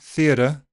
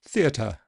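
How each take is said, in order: First: The T is a voiced flap. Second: The T is slightly aspirated. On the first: It comes across as American. "A voiced D or flap sound American" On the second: It comes across as too posh. "a slightly aspirated T sounds a bit too posh"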